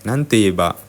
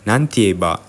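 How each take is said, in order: First: The syllable after nan is a quick te. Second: The syllable after nan is a quick te.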